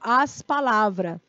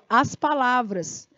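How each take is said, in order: First: The word is cut short before its ending. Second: The word is pronounced fully through its ending. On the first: The speaker calls it wrong. "Terminou bem aqui" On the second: The speaker calls it right. "Olha como eu falei aqui"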